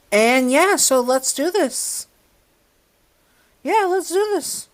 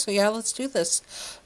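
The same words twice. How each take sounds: First: High, bright hype; excited. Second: Said in the usual way. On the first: Real, not acted. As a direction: pump it up, way up high. Hyped intro to video.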